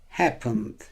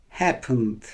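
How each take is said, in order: The two takes are said the same way.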